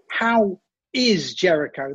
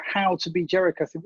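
First: "is" drawn out slowly and stressed; How "is" Jericho, slow and questioning. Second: Said in the usual way. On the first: Shown as a demonstration. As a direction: lean on "is", slow. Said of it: "That's the line, isn't it?". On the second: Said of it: "surely it should be".

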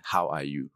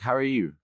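First: "How are you" with separate words, Nigerian accent. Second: "How are you" higher, run together, Canadian accent. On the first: Contrasting accents for interviewer, Nigerian "How are you". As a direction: sound out each word of "How are you", Nigerian style. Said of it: "We're actually saying the words". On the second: Contrasting accents for interviewer, Canadian "How are you". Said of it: "the Canadian accent kind of brings things together". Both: Shown as a demonstration.

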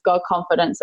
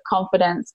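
First: God given the weight, confidence lighter; stress on God. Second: Said in the usual way. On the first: Shown as a demonstration. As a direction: lean on the word God.

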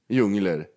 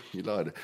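First: "djungler" with an -er ending, djung-ler; pron djungler. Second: "Djunglar" with an -ar ending, quiet and low; pron djunglar. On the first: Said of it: "Säger man djungler?". ("djungler" uttalat med -er på slutet) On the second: ("Djunglar" tyst och lågt, med -ar på slutet) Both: Shown as a demonstration.

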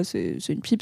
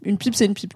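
First: Low, quiet, know-it-all tone; a lightly voiced clueless guy; dismissive guy voice. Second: Said in the usual way. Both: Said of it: "des mecs, euh, qui pensent que".

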